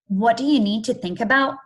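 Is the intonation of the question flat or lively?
flat. The question has flatter, less varied intonation. The speaker calls it wrong.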